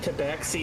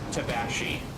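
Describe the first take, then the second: First: The middle consonant is a 'ks' sound. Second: The middle consonant is a 'sh' sound. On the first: "tabaxi isn't the only way to pronounce that" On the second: "it's equally correct to pronounce it tabashi"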